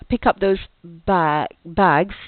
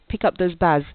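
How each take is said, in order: First: The final consonants of bags are clearly pronounced. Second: The final consonants of bags are left off. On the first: The speaker calls it right. "instead of saying" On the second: The speaker calls it wrong. "without the sound ending produced"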